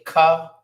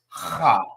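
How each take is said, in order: First: It starts with a hard k sound. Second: It starts with a raspy throat sound. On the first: The speaker calls it wrong. "Some people may say Ka, but that's not the correct way" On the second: The speaker calls it right. "like you hawking up some spit"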